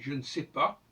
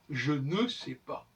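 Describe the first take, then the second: First: The vowel in 'ne' is dropped. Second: The vowel in 'ne' is clearly pronounced. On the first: The speaker calls it right. "c'est plus français" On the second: The speaker calls it wrong. "c'est une façon de prononcer le E dans un cas où il devrait être muet"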